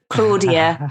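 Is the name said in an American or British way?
British. The name is said in a British way. Her own native way of saying the name. "instead of Claudia"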